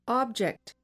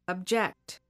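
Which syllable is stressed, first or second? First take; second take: first; second. First: The stress is on the first syllable. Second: The stress is on the second syllable. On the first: It is used as a noun. "I will say the noun first" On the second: It is used as a verb. "the verb second"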